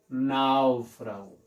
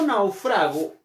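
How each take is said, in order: First: The stress is on the first syllable. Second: The stress is on the second syllable. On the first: It is a noun or adjective. "náufrago, nau, será la sílaba tónica" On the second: It is the verb. "ahí estamos hablando del verbo"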